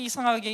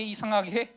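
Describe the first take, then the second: First: 이상하게 with the pitch falling at the end; 이상하게 settling downward; falling tune. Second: 이상하게 with the pitch lifting at the end, left hanging; 이상하게 trailing upward as a question; rising tune. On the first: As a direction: say 이상하게 and let it drop. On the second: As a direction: say 이상하게 and let it rise, unresolved. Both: Shown as a demonstration. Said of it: "정말 이상하게".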